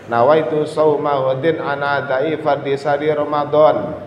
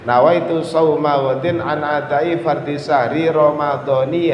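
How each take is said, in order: First: The last word ends with no final vowel. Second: The last word ends with an i vowel. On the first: "Sing paling aman sampean pateni disukun" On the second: "Kalau sampean ingin baca hadis sanati Ramadhani"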